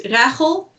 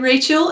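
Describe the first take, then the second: First: The name is said with non-English pronunciation. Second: The name is said with English pronunciation. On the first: This is the name's actual pronunciation. The speaker calls it right. "Actually, it's Rachel" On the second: This is how English speakers usually say it. The speaker calls it wrong. "in English people say Rachel"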